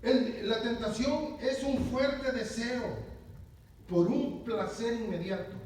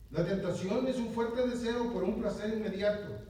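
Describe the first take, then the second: First: Slow dictation. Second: Said in the usual way. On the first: Shown as a demonstration. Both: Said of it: "Y uno dice".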